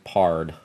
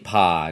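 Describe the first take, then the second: First: The vowel is an 'ar' sound with an r. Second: The vowel is a plain short 'o' sound.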